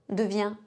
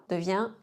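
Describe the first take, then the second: The two takes are said the same way.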